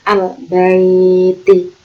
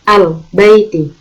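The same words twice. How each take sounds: First: The ai vowel is drawn out long. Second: The ai vowel is short and soft. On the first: The speaker calls it wrong. "bukan al baiti" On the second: The speaker calls it right. "lunak, lemas serta tidak boleh dipanjangkan"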